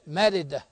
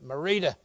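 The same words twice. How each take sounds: First: The name is said in a Mexican Spanish style. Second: The name is said in an American English style. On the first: The speaker calls it right. "They got a way of saying it. ... Yeah, something like that" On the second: The speaker calls it wrong. "Merida is what I said. I said, that's how you spell it. That's how I'm saying it"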